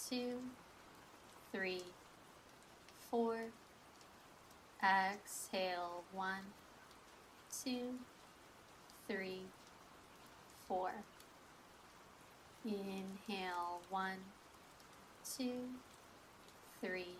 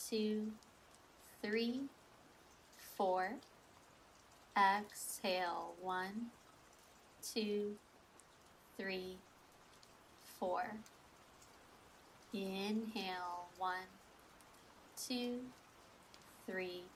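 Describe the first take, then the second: No difference in how they are said.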